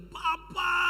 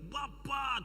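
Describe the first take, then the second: First: Put-on child crying out for father, higher and louder; shout. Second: Said in the usual way. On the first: Child calling to his father, relieved cry. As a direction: call out in relief. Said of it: "dia berteriak". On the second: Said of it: "Tidak mungkin dia berteriak".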